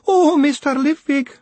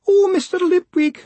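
First: High, slow, loud wailing; long distraught wail. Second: High, loud wail. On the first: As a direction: drag the wail out, near sobbing. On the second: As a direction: wail his name in despair. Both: Acted. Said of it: "she wailed".

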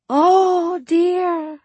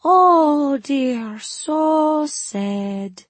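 First: High, loud fake Suli dismay; overdone fortune-teller sorrow; mock dismay. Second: High, loud fake Suli lament; overdone fortune-teller pity; mock sorrow. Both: Feigned dismay in fake accent.

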